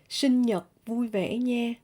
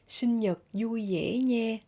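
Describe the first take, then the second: First: It is said in a northern Vietnamese accent. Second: It is said in a southern Vietnamese accent.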